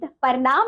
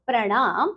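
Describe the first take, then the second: First: प्रणाम broken as "par-naam"; wrong pronunciation. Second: प्रणाम as "pra-naam"; correct pronunciation. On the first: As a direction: split p from r in प्रणाम. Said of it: "आपको कुछ अशुद्ध शब्द". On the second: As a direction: join p and r at the start of प्रणाम. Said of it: "और शुद्ध शब्द". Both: Shown as a demonstration.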